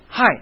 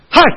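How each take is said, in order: First: The word is said lightly and softly. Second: The word is said loudly and suddenly. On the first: "比我这个发音要重了很多" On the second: "我突然说一声嗨，然后有人被我惊醒了"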